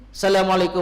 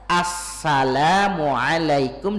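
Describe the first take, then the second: First: The greeting is rushed and slurred together. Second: The greeting is said fully and carefully. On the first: The speaker calls it wrong. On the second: The speaker calls it right.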